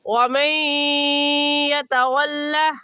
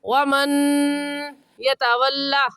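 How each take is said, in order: First: The n merges with nasalization into the y. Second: The n is pronounced clearly before the y. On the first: The speaker calls it right. "सही है" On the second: The speaker calls it wrong. "ये कहना गलत होगा"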